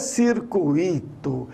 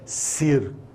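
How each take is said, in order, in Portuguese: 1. O u e o i formam duas sílabas separadas. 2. O u e o i se fundem em uma só sílaba. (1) "Não é um hiato" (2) "é um ditongo"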